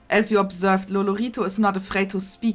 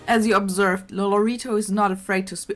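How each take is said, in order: First: It is read in a heavy German accent. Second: It is read in the speaker's ordinary accent.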